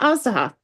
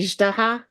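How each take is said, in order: First: The middle consonant is a plain Z sound. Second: The middle consonant is a hard G sound. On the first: "Not Azdaha" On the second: "like with a hard G, but it's not"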